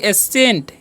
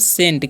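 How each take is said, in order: First: The word begins with a vowel sound. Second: The word begins directly with an s sound. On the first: The speaker calls it wrong. "एसेंट पढ़ेंगे नहीं" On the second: The speaker calls it right. "यहाँ पर सी silent है"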